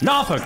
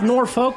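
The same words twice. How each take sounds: First: The city name has its local pronunciation. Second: The city name has a non-local pronunciation. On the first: The speaker calls it right. "Norfolk, not Norfolk. We fucking read the comments" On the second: The speaker calls it wrong. "not Norfolk"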